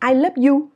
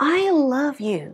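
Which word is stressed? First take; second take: none; I. First: It is said plainly with no special stress. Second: The stress is on the word I.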